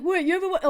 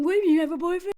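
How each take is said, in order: First: Said in the usual way. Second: Mock wounded surprise, rising on boyfriend. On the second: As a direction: play the poor victim, shocked. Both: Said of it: "okay, so now he's the victim".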